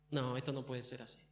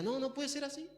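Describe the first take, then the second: First: Low, hushed disbelief; soft, brooding refusal to accept it; envious Lucifer. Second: High, soft mock-whiny voice; hammed-up petulant disbelief, pitched high; vain Lucifer at the mirror. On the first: Acted. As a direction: mutter it darkly to yourself. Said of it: "Nació envidia". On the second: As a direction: protest to your own reflection in a small high voice. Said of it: "se miraba en el espejo y decía".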